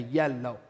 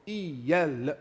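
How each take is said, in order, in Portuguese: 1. A palavra começa com um "y" firme, de consoante. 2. A palavra começa com um som parecido com vogal. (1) "É yellow. Ya, ya" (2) "como se tivesse um alto e baixo"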